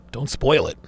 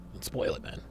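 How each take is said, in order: First: Said in the usual way. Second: Whispered much softer and lower; whispered plea not to spoil it; hushed whisper. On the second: Real, not acted. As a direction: drop to a secret whisper. Repeats plea, then hushed.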